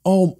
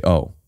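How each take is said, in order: First: Sharp high gasped oh; a startled, much higher "Oh"; caught off guard. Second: Caught off guard. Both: Shown as a demonstration. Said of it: "as if you're caught off guard".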